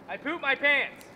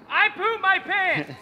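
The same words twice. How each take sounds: First: It is said at normal, quieter volume. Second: It is said loudly.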